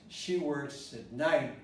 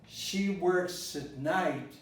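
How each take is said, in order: Both takes have the same delivery.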